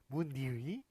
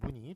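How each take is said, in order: First: The second vowel glides through a ui sound. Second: The second vowel is a plain i sound. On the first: The speaker calls it wrong. "이런 식으로 막 어렵게 발음해야 될 것 같은데요" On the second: The speaker calls it right. "그냥 이로 발음해 주시면 되겠습니다"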